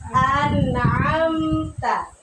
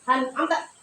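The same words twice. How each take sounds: First: The m sound is clear with slight flow. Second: The m sound is rushed and very short. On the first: The speaker calls it right. "Yang betul adalah An'amta" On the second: The speaker calls it wrong. "juga tidak boleh terlalu cepat"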